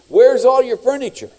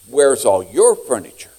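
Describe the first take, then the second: First: The voice is plain and not gravelly. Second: The voice is rough and gravelly.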